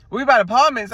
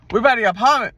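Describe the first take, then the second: First: Louder Atlanta take on apartments; Atlanta accent. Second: Atlanta accent attempt. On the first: Correcting herself for the viewers, Atlanta accent. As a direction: say it the ATL way, apartments with an s. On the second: Trying to sound Atlanta to her listeners, first Atlanta take. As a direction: sound ATL, but slip on apartment. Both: Shown as a demonstration. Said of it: "No, I said it wrong".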